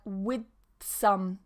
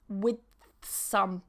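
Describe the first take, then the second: No difference in how they are said.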